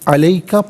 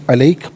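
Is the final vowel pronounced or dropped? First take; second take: pronounced; dropped. First: The word ends with a final vowel. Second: The word ends without a final vowel. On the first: The reading continues without stopping. "अलैका पढ़ेंगे" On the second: The reader stops at this word. "वफ़ की सूरत में अलैक पढ़ा जाएगा"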